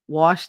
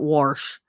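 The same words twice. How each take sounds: First: The word is said with no R sound. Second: The word is said with an added R sound. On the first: The speaker calls it right. "I say wash" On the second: The speaker calls it wrong. "not wash. No, I don't put an R in there"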